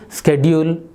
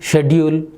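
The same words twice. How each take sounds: First: It is said with an American pronunciation. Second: It is said with a British pronunciation. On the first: "When you are moving in American uh, streets, better you use schedule" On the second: "When you are in U K or any other uh, European countries, better you use schedule"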